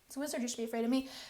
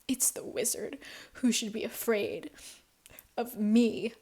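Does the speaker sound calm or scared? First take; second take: calm; scared. First: It sounds calm, with no fear. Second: It sounds scared and trembling.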